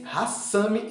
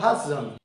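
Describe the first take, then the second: First: The middle consonant is a hissing s sound. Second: The middle consonant is a buzzing z sound. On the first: The speaker calls it right. "lê-se hassami" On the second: The speaker calls it wrong. "e não hazami"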